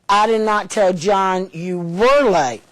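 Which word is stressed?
were. The word were carries the strongest stress. The lateness is ongoing, not just past. "I told him you are all the time"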